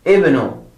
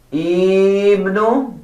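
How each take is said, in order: First: Short clipped ibnu; correct pronunciation. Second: Higher drawn out ibnu; wrong pronunciation. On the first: Teacher gives students the right ibnu. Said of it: "But the correct one is". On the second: Teacher shows the wrong ibnu. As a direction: give ibnu the wrong stretched vowel. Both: Shown as a demonstration.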